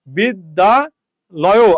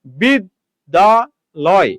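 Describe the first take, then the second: First: "বিদ্যালয়" slowly as bid, da, loyo, ending open on o; added final vowel. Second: "বিদ্যালয়" broken slowly into bid, da, loy; very slow "বিদ্যালয়", pausing after each syllable, ending closed on loy. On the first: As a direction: split "বিদ্যালয়" and add an o at the end. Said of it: "আপনি কিন্তু বিদ্যালয় বলেন না". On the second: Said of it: "আপনি এই জায়গাতে উচ্চারণ করছেন". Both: Shown as a demonstration.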